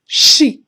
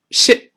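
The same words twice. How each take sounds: First: Sheep 的元音拉长; 对比示范 sheep 的长音“一”; 长元音. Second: Ship 的元音读短; 对比示范 ship 的短音 i; 短元音. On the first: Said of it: "这是长音一". (sheep 读长音) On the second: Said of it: "不一样". (ship 读短音) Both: Shown as a demonstration.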